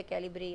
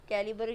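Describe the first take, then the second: First: "कैलिब्री" with b and r run together; variant pronunciation. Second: "कैलिबर" with a full vowel between b and r; variant pronunciation. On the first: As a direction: say "कैलिब्री" as kai-li-bree. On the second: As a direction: say "कैलिबर" as kai-li-bur, syllables apart. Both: Shown as a demonstration. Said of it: "pronunciation में हर किसी का थोड़ा difference".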